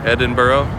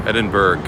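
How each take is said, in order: First: Rising, questioning "Edinburgh" ending in "oh"; questioning ED-in-burr-oh. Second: Falling "Edinburgh" ending on a hard "burg"; firm ED-in-burg. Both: Shown as a demonstration. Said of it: "Is it Berg".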